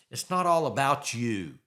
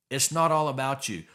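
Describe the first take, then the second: First: All leaned on, falling away after it; stress on ALL. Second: Not punched, falling through the line; stress on NOT. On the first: To a listener who thinks only of themselves, stress on all. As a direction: hit the word all and let the rest drop. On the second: Repeating it to the listener, stress on not. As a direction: hit the word not and let the rest drop. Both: Shown as a demonstration.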